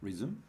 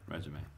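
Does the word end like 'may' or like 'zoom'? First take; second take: zoom; may. First: The word ends with a 'zoom' sound. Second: The word ends with a 'may' sound. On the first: It means to start again. "Resume 하면 다시 시작하다. 이 말이야. 게임할 때 Resume이라고 나오잖아" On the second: It means a CV listing work history. "이건 이력서"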